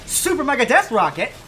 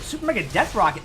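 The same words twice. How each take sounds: First: The name is said with loud, exclaiming energy. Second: The name is said in a plain, flat way. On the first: The speaker calls it right. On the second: The speaker calls it wrong.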